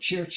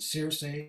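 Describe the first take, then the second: First: The name is pronounced the Italian way. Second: The name is pronounced the English way.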